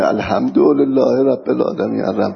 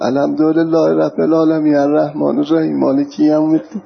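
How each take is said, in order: First: Said in the usual way. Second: Quran verse recited in a regional Iranian accent. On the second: Shown as a demonstration. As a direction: demonstrate reciting with a local Persian accent. (تلاوت با لهجهٔ محلی)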